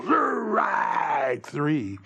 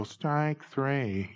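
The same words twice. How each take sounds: First: Drawn-out umpire's shout; long, roaring strikeout call; selling the call. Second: Said in the usual way. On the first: Shown as a demonstration. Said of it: "You gotta go". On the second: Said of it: "you can't just go".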